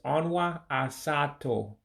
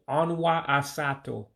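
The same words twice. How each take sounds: First: The phrase is said slowly and deliberately. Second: The phrase is said at natural conversational speed. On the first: "So slowly it's" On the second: "the way I hear it all the time"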